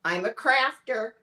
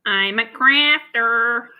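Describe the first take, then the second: First: "I'm a crafter" in a Midwestern American accent. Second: Slow, loud try at a Midwestern American accent; a dragged-out stab at a Midwestern American accent; attempted Midwestern accent. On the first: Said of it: "test your Midwestern American accent". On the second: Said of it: "Where was that from?". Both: Shown as a demonstration.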